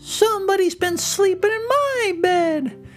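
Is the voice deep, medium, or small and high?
small. It is said in a loud, little, shrill voice.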